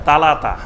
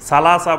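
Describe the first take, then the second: First: The word is said with t sounds. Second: The word is said with s sounds. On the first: This is how regional speakers say it. "বলবে তালাতা" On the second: This is the form the regional speakers avoid. "সালাসা বলবে না"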